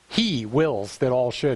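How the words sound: The word 'he' carries strong emphasis.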